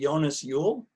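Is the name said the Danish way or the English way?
Danish. The name is said the Danish way.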